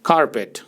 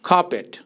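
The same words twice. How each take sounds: First: American accent, with a soft r sound. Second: British accent, with the r sound silent. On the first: "American English में ... आर सुनाई देगा" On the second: "British accent में आमतौर पर आर silent होता है"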